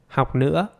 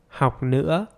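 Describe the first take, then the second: The two takes are said the same way.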